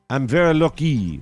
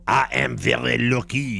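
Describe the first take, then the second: First: It is said in the speaker's ordinary accent. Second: It is said with a French accent.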